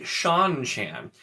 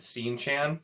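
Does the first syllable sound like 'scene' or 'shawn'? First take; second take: shawn; scene. First: The first syllable sounds like 'shawn'. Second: The first syllable sounds like 'scene'. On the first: "pronounced S E A N as Sean" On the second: "I've always just said Scene Chan"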